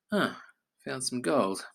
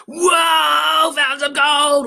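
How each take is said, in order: First: Said in the usual way. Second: High, loud thrilled whoa; overjoyed discovery shout; excited shout. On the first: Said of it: "Are they gonna say". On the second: Shown as a demonstration. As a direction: yell it like you struck it rich. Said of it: "Or are they gonna say".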